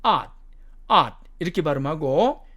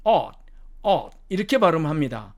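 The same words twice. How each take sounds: First: "ought" with an open ah vowel; American pronunciation. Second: "ought" with a rounded aw vowel; British pronunciation. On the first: Teacher modelling the first word, American pronunciation. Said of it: "미국식 발음으로는". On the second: Teacher contrasting the first word, British pronunciation. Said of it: "영국식 발음으로는". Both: Shown as a demonstration.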